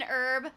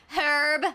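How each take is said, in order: First: Said in the usual way. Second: "Herb" with a sounded H; H pronounced. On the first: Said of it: "you have to pronounce the H". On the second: Shown as a demonstration. Showing the British way, "Herb" with its H sounded. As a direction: breathe a clear H at the start of "Herb". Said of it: "you have to pronounce the H in herb".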